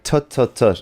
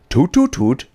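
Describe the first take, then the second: First: It is said in the speaker's plain accent. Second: It is said in a German accent.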